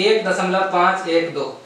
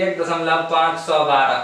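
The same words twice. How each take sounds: First: "पाँच एक दो" said digit by digit, slowly; slow, careful digit-by-digit "एक दशमलव पाँच एक दो"; correct digit reading. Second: "पाँच सौ बारह" read as a whole number, five hundred twelve; the mistaken way a student reads "एक दशमलव पाँच सौ बारह"; wrong reading. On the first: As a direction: spell out "पाँच एक दो" one digit at a time after the point. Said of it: "पाँच एक दो पढ़ते हैं". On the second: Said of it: "पाँच सौ बारह नहीं पढ़ते हैं इसको". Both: Shown as a demonstration.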